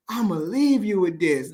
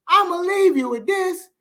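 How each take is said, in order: First: Said in the usual way. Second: Sudden high, pushed-up delivery; a pitched-up sign-off line; high emphatic repeat. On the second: Real, not acted. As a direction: lift it way up for emphasis.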